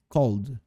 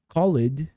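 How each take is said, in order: First: The -ed ending adds no extra syllable. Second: The -ed ending is said as an extra syllable. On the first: The speaker calls it right. "é called" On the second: The speaker calls it wrong. "Perceba que não é called"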